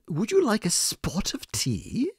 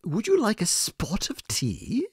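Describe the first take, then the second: First: It is said in a put-on British accent. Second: It is said in a put-on British accent.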